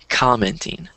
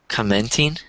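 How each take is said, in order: First: The stress is on the first syllable. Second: The stress is on the second syllable. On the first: The speaker calls it right. "but you should say commenting" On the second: The speaker calls it wrong. "you stressed the second syllable instead of the first syllable. So you said commenting"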